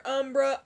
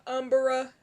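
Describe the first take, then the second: First: "Umbra" in two syllables, UM-bruh; two-syllable pronunciation. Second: "Umbra" stretched to UM-ber-uh; three-syllable pronunciation. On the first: Showing both ways count as same thing, "Umbra" as UM-bruh. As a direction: say "Umbra" tightly as UM-bruh, no extra vowel. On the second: Showing both ways count as same thing, "Umbra" as UM-ber-uh. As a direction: say "Umbra" with an extra vowel, UM-ber-uh. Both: Shown as a demonstration. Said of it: "same thing".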